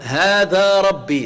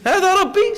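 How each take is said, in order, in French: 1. Elle est dite avec une intonation d'affirmation. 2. Elle est dite avec une intonation de question ironique. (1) "c'est une affirmation" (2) "est celui-là mon Seigneur?"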